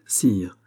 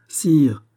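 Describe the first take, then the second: First: Said in the usual way. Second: A sharp, louder and higher cry of sire!; alarmed cry. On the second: A narrator's reading. Louise warns the king of footsteps, crying out. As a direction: call out sire! in sudden alarm. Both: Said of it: "s'écria la Vallière".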